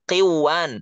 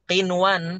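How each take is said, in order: First: The n sound merges into the following w. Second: The n sound is pronounced clearly before w. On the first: The speaker calls it wrong. "jangan baca qiwan, qiwan di diidghamkan" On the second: The speaker calls it right. "Qinwan itu juga izhar mutlak ya"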